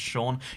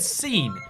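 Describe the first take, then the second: First: The name begins with an SH sound. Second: The name begins with a plain S sound. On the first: The speaker calls it wrong. "pronounced Sean" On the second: The speaker calls it right. "it should be said scene"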